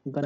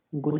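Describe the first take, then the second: First: गन with an uh vowel; short U sound. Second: गुन with an oo vowel; wrong U sound. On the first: Teacher correcting the reading, गन with short uh. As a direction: say गन as in English gun. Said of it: "गन होगा". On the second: Teacher rejecting a misreading, गुन with oo. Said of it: "गुन नहीं होगा". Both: Shown as a demonstration.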